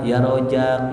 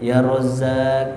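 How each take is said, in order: First: The middle consonant is a j sound. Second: The middle consonant is a z sound. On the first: The speaker calls it wrong. "jangan ya Rojak" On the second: The speaker calls it right. "Harus benar bacanya"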